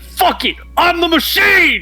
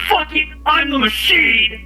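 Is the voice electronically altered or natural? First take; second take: natural; altered. First: The voice sounds natural, with no electronic effect. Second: The voice sounds electronically altered by a voice changer. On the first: "Wait, is it not on?" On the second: "Is that better? There it is"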